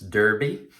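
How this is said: The first vowel sounds like 'der', American style. This is how it is said in the US. "If you're in the U S, it's Derby"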